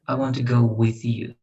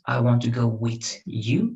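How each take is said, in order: First: The th in "with" is soft and fluid. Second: The th in "with" is hard and abrupt. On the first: The speaker calls it right. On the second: The speaker calls it wrong. "We don't say with"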